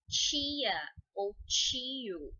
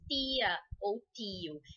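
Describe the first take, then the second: First: The t sounds like a ch sound. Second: The t is a plain t sound. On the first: This is how many regions say it. "Em muitas regiões do nosso país, nós dizemos" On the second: This is how other regions say it. "Esse último T é o T que você tem que usar em inglês"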